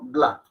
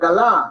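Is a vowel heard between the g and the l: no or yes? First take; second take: no; yes. First: The g and l run together without a vowel. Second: A short vowel is heard between g and l. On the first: The speaker calls it right. "No, gla" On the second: The speaker calls it wrong. "Y no es galá"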